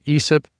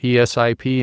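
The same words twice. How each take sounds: First: It is said as a single word. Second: Each letter is said separately. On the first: "is acronym" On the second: "an abbreviation"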